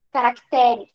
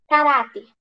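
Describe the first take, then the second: First: "Caracteres" with the beat moved onto "te"; stress shifted to TE. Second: "Caráter" with the beat on "rá"; stress on RÁ. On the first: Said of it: "até a sílaba tônica muda". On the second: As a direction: stress the middle syllable of "Caráter". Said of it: "a sílaba tônica dela é esse irá". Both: Shown as a demonstration.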